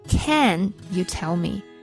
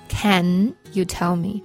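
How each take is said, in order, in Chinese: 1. 单词 can 是重读的。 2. 单词 can 是重读的。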